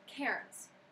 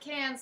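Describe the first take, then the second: First: The R sound in the word is pronounced. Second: The R sound in the word is silent. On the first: "we would pronounce it as Cairns" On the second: "Their R is what I like to call silent"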